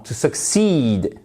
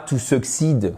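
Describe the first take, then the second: First: "succeed" with a long, weighted CEED; stress second syllable. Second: "succeed" without the strong second syllable; short, unaccented ending on "succeed"; mispronounced succeed. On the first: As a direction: model suk-SEED for "succeed", slowly. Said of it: "accent tonique sur". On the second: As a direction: say "succeed" wrongly, French-style SUK-sid. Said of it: "non, to succeed". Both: Shown as a demonstration.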